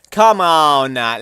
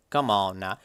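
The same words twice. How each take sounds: First: Louder, slower: "Come on now" stretched out; drawn-out exasperated come on now. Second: Said in the usual way. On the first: Real, not acted. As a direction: drag "Come on now" out in disbelief. Dismissing low player count.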